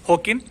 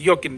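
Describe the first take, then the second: First: It begins with a breathy h sound. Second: It begins with a y sound. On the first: The speaker calls it wrong. "अगर आप खोता का साउंड ख या है ले रहे हो" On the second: The speaker calls it right. "इसको योकिन बोला जाता है"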